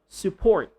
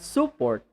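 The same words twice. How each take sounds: First: The stress is on the second syllable. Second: The stress is on the first syllable. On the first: The speaker calls it right. "the stress is on the second syllable" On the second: The speaker calls it wrong. "So not support"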